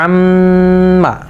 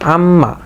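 First: The doubled m is held with a long nasal hum. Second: The doubled m is said briefly without holding. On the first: "ওয়াজিব গুনাহ সহকারে যদি উচ্চারণ করতে যাই" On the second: "নর্মালভাবে যদি উচ্চারণ করি"

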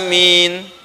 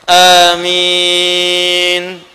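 First: The second vowel is held briefly. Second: The second vowel is held moderately long. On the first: "Dua harokat" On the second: "Empat harokat"

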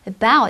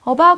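First: The first vowel is a weak, barely heard uh. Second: The first vowel is fully pronounced. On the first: The speaker calls it right. "about 이렇게 발음이 나요" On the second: The speaker calls it wrong. "about이 아니라"

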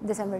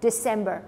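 First: The first sound is a soft dental d. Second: The first sound is a hard English d. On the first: "Urdu में कोई मुझे बताएगा तो कैसे बोलते हो आप दिसंबर कहते हैं" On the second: "इंग्लिश में कहते हैं डिसम्बर, ड साउंड"

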